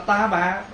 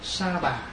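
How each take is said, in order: First: The first word begins with a t sound. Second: The first word begins with an s sound. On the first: The speaker calls it wrong. "Bây giờ mình đọc là ta bà, đọc nó trái rồi" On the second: The speaker calls it right. "nếu mình nói đúng là mình đọc là sa bà"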